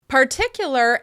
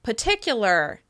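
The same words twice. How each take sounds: First: The first R sound is pronounced. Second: The first R sound is dropped.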